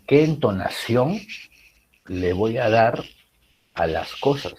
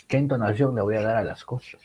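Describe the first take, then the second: First: Slow phrase in three steps, letting "a las cosas" sink; falling end. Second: Whole question in one flow, "cosas" sinking at the end; falling end. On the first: Teacher showing intonation to students, stepped phrase with "cosas" falling. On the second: Teacher repeating the example for students, connected phrase falling on "cosas". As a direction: run it on without pauses, let "a las cosas" drop. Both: Shown as a demonstration. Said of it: "como que lo último cae".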